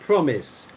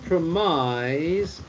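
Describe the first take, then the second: First: The final syllable sounds like 'iss'. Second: The final syllable sounds like 'ize'. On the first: The speaker calls it right. "but it's uh, the word promise" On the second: The speaker calls it wrong. "So it's not promise"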